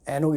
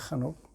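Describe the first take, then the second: First: It starts with a plain vowel, no throat sound. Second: It starts with a rough sound from the throat. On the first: This is how the name is usually said. "우리가 막 에녹 이렇게 들릴 수 있는 거예요" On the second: This is how the name is said in the original language. "한옥이니까 발음이 이제 목, 목구멍에서 나기 때문에"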